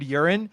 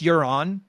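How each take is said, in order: First: The name sounds like the word urine. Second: The name ends with an on sound. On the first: The speaker calls it wrong. "the villain is named Urine" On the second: The speaker calls it right. "I know it's Euron"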